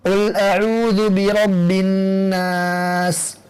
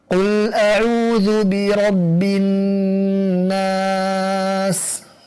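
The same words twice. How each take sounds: First: It is recited quickly. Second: It is recited at a moderate speed. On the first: It suits someone wanting to maximize reward. "lebih cepat lagi daripada tadwir" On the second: It suits someone reflecting on the meaning. "waktu membacanya lebih cepat daripada tahqiq"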